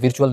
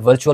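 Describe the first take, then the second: First: The first vowel sounds like 'ee'. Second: The first vowel sounds like 'ur'. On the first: The speaker calls it wrong. "विर्चुअल नहीं होता" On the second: The speaker calls it right. "वर्चुअल होता है"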